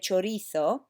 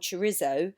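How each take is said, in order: First: The word is pronounced the Spanish way. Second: The word is pronounced the English way. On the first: "but Spanish would say" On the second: "English people tend to pronounce it as"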